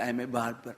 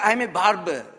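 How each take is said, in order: First: It is said apologetically. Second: It is said with pride.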